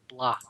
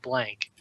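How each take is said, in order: First: The word ends without a k sound. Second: The word ends with a clear k sound. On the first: The speaker calls it right. "It's like Blanc" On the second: The speaker calls it wrong. "Because there's no K, so it's not blank"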